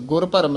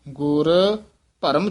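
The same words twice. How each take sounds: First: The two words run together without a pause. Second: There is a short pause after the first word. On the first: The speaker calls it wrong. "ਗੁਰ ਭਰਮ ਨਹੀਂ ਕਹਿ ਦੇਣਾ ਹੈ" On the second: The speaker calls it right. "ਗੁਰ ਪਦ ਤੇ ਵੀ ਠਹਿਰਾ ਦੇ ਕੇ"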